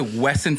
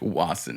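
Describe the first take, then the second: First: The first vowel sounds like 'eh'. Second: The first vowel sounds like 'ah'. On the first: The speaker calls it wrong. "I used to say Wesson forever" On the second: The speaker calls it right. "Okay, that makes more sense"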